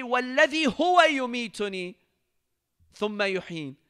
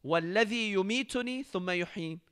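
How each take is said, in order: First: هو lifted and pushed louder in the recitation; هو stressed, then ثم يحيين falling. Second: Plain recitation. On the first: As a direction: lean into هو, faster recitation. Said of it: "He doesn't say". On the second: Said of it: "But in the following verse". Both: Shown as a demonstration.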